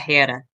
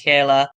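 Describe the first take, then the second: First: The middle consonant is an R-like sound. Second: The middle consonant is a clear L sound. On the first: The speaker calls it right. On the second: The speaker calls it wrong.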